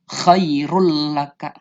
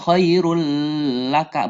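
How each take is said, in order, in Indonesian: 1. Bunyi n melebur ke dalam bunyi l. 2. Bunyi n tetap ada sebelum l. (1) "bunyi N-nya itu hilang" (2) "bukan khairul laka, bukan seperti itu"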